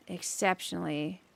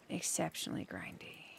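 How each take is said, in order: First: Said in the usual way. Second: Half-voiced whisper, much softer; a whispered exceptionally grindy; whispered aside. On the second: Real, not acted. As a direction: breathe the words out under your breath. Musing on the grindy behemoth.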